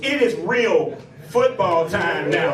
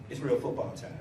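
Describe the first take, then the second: First: It is yelled loudly like a coach. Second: It is said at a normal volume.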